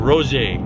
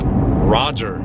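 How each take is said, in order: First: The name is pronounced differently from its spelling. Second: The name is pronounced as its spelling suggests. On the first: The speaker calls it right. "It's probably Roger" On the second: The speaker calls it wrong. "you might think Roger"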